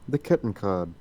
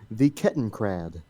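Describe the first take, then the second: First: It is said without an American R sound. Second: It is said with an American R sound.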